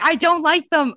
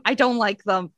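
First: Higher and louder, insisting hard on don't; emphatic protest. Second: Said in the usual way. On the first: Real, not acted. To shocked co-host about mangoes, loud emphatic protest. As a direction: defend yourself loudly with a hit on don't.

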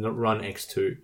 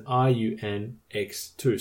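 First: "run X two" with RUN as one word; "run X two", run blended, then X and two; pronounced as a word. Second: "R U N X two" spelled out slowly; "R U N X two", each letter named on its own. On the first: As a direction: say "run X two", reading the first letters as the word run. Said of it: "I'm gonna pronounce it as". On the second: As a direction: say "R U N X two" as separate letters, then the number. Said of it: "it's spelled as". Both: Shown as a demonstration.

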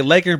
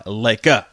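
First: Said in the usual way. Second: "Laker" with the final R softened to "ah"; imitated Lakers accent. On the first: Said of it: "Some people just say Lakers". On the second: Caller teasing the host about how he says Lakers, imitated accent. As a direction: mimic his "Laker", dropping the S and ending on "ah". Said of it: "I love when you say Lakers".

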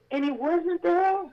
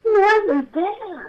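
First: Dawning disbelief. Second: Drawn out very slowly, much higher and louder; stunned disbelief. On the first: Finds the angel gone. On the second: Telling listeners the angel had vanished, in stunned disbelief. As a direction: let the shock hit, stretch every word. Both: Real, not acted.

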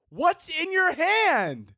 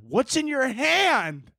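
First: "What's in your hand?" slow and pitched up in disbelief, stressing "hand"; higher, incredulous repeat. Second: Slow, deliberate "What's in your hand?" with the weight on "hand"; slow pointed question. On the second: Calls out vaping hypocrites. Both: Acted.

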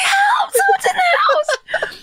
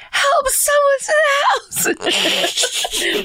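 First: High cracking half-shout, slow and laughing; desperate hushed scream for help, hammed up; whisper yelling. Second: High strained whisper-shout for help; urgent hushed yell. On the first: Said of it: "Whisper yelling is the saddest". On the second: Retold or imitated. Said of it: "I whisper yelled as desperately as I could".

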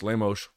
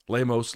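First: "Lemos" with the final s as sh; Rio pronunciation. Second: Said in the usual way. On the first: Shown as a demonstration. Trying both versions of the name, Rio pronunciation. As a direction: end "Lemos" on a hushing sh. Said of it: "Rio de Janeiro accent where they say Lemos". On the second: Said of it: "where they say Lemos".

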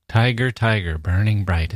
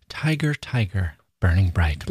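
First: Chanted, "Tiger, tiger, burning bright" with even beats and falling tune; rhythmic chant. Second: "Tiger, tiger" with a falling chant on each "tiger"; sing-song cadence. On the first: Chanted, teacher repeating the line for students, sing-song. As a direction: chant it like a nursery rhyme. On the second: Teacher showing students the poem's cadence, chanting. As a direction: chant "Tiger, tiger, burning bright" with a rhythmic beat. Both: Shown as a demonstration. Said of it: "Listen to that cadence".

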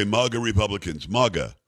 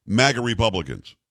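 First: "maga" said as mah-ga, broad a, dropping lower; lightly voiced mah-ga instead of magga; Trump Junior's pronunciation. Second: Said in the usual way. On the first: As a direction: imitate "maga" with an open ah vowel like Trump Junior. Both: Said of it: "Or as Trump Junior would say".

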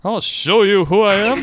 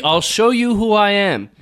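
First: Rising, mock-menacing reveal; hint of a mad villain; unhinged menace. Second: Slow, menacing reveal; lightly voiced villain threat; unhinged menace. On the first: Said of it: "Maniacal laugh". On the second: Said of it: "It's a big reveal".

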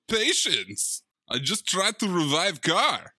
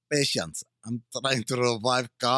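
First: Mock Eastern European accent, "car" dropped; broken English accent. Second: Put-on broken English accent. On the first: Host imitating Travolta's Balkan accent to De Niro. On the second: Cohost mimicking Travolta's Balkan accent. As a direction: lower mock Balkan accent on "revive car". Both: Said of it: "that broken English".

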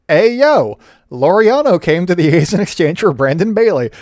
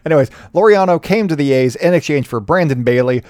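First: Half-hearted wrestler voice on the intro; bad Razor Ramon impression. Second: Said in the usual way. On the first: Podcaster sneaks in a bad wrestler impression, hammed-up. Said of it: "such a bad Razor Ramon impression". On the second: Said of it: "trying not to do the accent".

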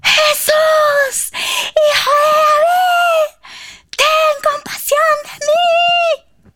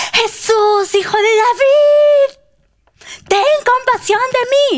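First: Very high, cracking scream, every word stretched; screaming even louder. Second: High, loud plea, dragged out; crying out. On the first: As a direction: scream the plea at full force, slowly. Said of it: "él gritó aún más fuerte". (grito desgarrado a todo pulmón) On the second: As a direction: shout desperately to be heard over a crowd. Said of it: "comenzó a gritar". (grito agudo de súplica) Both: Acted.

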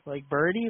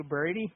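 First: Birdie again, stressed with a rising tune. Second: Birdie, like Brady with the r run into a soft burdie. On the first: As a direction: repeat Birdie for Brady, teasing. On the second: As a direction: say Birdie for Brady, lazy drawled vowel. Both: Retold or imitated. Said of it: "I like how you say my name".

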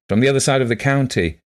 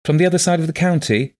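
First: "county" stated with a settled fall; confirming. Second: "county" as a high, surprised query; questioning. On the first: Visitor confirming who he is, settled "county". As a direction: confirm "from the other side of the county", less high. Man confirms her question. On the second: Blind woman checking who has come, questioning "county". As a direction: ask "from the other side of the county" high and louder. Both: A narrator's reading.

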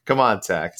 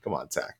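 First: Said in the usual way. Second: Low, soft under-the-breath "Come on, Tech."; quiet mutter. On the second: Real, not acted. Teasing a listener, said twice.

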